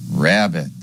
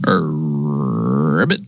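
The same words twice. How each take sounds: First: Said in the usual way. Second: Low drawn-out ribbit, flicked up at the end; frog croak. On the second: Pretend. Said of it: "That's the sound a frog makes".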